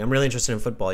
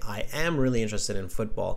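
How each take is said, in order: First: I am is contracted to one syllable. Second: I am is said as two separate words. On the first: "instead of saying" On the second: "you can say"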